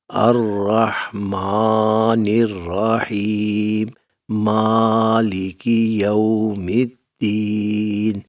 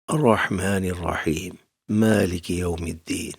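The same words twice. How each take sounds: First: It is recited slowly with long drawn-out sounds. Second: It is recited at a normal, brisk speed.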